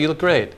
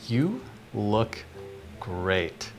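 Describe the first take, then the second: First: The words are said quickly, without emphasis. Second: Each word is said slowly, with strong emphasis. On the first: The speaker is not really enjoying the moment. The speaker calls it wrong. "that's a little quick" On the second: The speaker seems confident and is savoring the moment. The speaker calls it right. "put a little bit more pacing on each word, and you put more emphasis"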